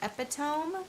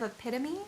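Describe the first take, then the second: First: The word is sounded out as it is spelled. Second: The word uses its usual spoken pronunciation. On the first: The speaker calls it wrong. "part of me wanted to say epitome" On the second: The speaker calls it right. "instead of epitome"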